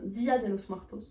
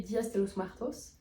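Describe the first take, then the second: First: "Dia" with no final S, French-accented Spanish; corrected Spanish name. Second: "Dias" run into "de los Muertos", with an added S; mistaken Spanish name. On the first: Vlogger fixing her own slip for viewers, corrected Spanish name. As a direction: say "Dia de los Muertos" in poor Spanish, Dia ending on A. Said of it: "Désolée pour mon accent espagnol qui est nul". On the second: Vlogger recalling a party with a friend, mistaken Spanish name. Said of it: "Non, Dia de los Muertos". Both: Real, not acted.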